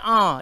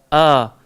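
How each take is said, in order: First: The a sound is raised up high. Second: The a sound comes from low in the throat. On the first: The speaker calls it wrong. "jangan naik ke atas. Dia jangan a" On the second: The speaker calls it right. "Dia mesti a"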